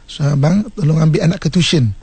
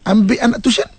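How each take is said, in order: First: Put-on wife asks husband nicely to fetch the child; gentle request. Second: Bossy order, pitched up; wife orders husband around; commanding tone. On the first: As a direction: ask kindly. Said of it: "Kan bagus tu". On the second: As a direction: give it as an order. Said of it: "tu dah memerintah". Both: Shown as a demonstration.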